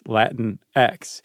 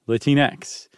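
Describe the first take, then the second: First: It is said as Latin followed by the letter X. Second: It is said as one blended word. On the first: "like Latin and then the letter X"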